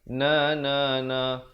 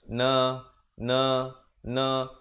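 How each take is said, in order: First: The syllables flow together without breaks. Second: The syllables are separated by breaks. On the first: The speaker calls it right. "Bacaannya mestilah bersambung" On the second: The speaker calls it wrong. "jangan pula kita baca terputus-putus"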